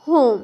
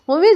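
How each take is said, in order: First: The word ends on the consonant m. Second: The word ends with an extra vowel sound. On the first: The speaker calls it right. "याद रखिएगा होम" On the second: The speaker calls it wrong. "होमे जो है ना mistake हो जाएगा"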